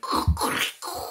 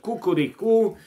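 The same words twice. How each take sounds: First: It is in a Donald Duck voice. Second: It is a normal rooster crow.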